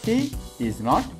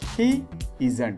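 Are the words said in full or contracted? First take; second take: full; contracted. First: All three words are said fully and separately. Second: The last two words are joined into one. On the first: "full form of the helping verb" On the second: "It's short form"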